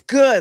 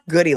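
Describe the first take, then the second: First: The name is said like the word 'good'. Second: The name is said like the word 'goody'. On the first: The speaker calls it right. "It's good, like good humor" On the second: The speaker calls it wrong. "It's not goody like the hair ties"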